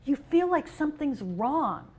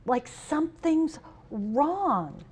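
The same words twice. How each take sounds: First: Said in the usual way. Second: "something's wrong" slowed right down and leaned on; slow emphatic repeat. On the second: Real, not acted. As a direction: repeat it slowly, pressing on "something's".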